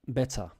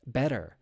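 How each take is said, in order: First: "better" as "bet-tah", no r at the end; British, no R. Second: "better" with a pronounced final r; American "better", tapped t and r-coloured ending. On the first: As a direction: UK "better" with a clear t and open ending. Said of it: "in the U K, it will be". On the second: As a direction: sound the r at the end of "better". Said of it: "the R is pronounced in the United States". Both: Shown as a demonstration.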